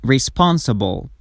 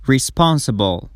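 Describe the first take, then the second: No difference in how they are said.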